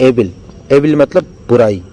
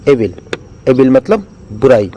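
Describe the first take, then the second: Both takes have the same delivery.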